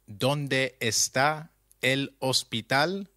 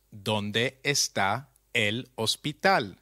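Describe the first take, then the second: First: Slow questioning option with a rise on hospital; offered as one choice, the end lifted; quiz option, rising. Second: Settled answer, the fall on hospital; confirmed answer, falling. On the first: Teacher reading a quiz choice to learners, slow and rising. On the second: Teacher giving the correct translation, calm and falling. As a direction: state it as the final answer. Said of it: "is translated as". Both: Shown as a demonstration.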